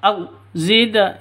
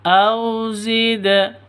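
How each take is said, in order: First: The 'au' is cut off abruptly with a jerk. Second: The 'au' glides softly and smoothly into the next sound. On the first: The speaker calls it wrong. "disentak au zida itu juga sah, salah" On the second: The speaker calls it right. "Yang betul au zida, au zida gitu lentur lemes"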